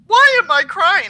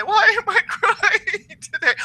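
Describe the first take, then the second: First: High, louder mock wail of a client asking why; imitating a crying caller. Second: High mock-weepy voice breaking into a laugh; hammed-up weepy client; imitating a crying caller, laughing. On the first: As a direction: play a weepy caller, half-hearted. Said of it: "I'll have people call me up and say". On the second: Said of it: "people call me up and say".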